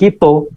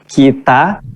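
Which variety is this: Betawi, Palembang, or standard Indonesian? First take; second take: Palembang; standard Indonesian. First: Palembang pronunciation ending in an o sound. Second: Standard Indonesian pronunciation ending in an a sound. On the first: "katanya orang Palembang" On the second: "kalau dibawa di bahasa Indonesia asli maka bunyinya kita"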